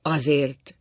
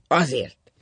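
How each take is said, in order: First: Weary insistence; tired repetition. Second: Loud, falling single word; curt answer. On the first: Husband worn out by the argument, tired. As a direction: repeat it wearily. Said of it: "ismételte fáradtan". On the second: Husband refusing to explain to his wife, curt. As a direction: close the matter bluntly. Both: A narrator's reading.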